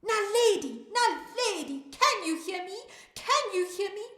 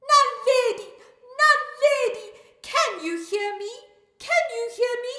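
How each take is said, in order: First: High, loud call to someone; shout. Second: Very loud, high-pitched yell; shout. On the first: Storyteller rehearses calling to Naledi with listeners, shouting. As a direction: call out loudly to be heard. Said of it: "We're going to shout". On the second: Storyteller calls Naledi after counting to three, full shout. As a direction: shout at the top of your voice. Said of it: "We're going to shout after counting to three". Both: Acted.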